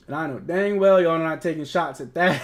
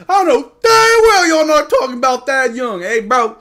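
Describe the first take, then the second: First: Said in the usual way. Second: Much higher and louder, slow, stretching dang well; hammed-up indignant yell at chat; mock outrage. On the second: Real, not acted. Outraged defense of young player.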